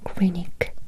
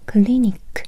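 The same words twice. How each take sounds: First: The consonant is a clear English L sound. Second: The consonant is a light Japanese flapped R. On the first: The speaker calls it wrong. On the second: The speaker calls it right. "Remember, Japanese R. The sound is like la la la la la"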